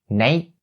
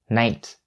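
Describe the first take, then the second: First: The final T is stopped, not released. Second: The final T is clearly released. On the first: "you can either stop it by saying night" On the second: "you can also distinctly pronounce it by saying night"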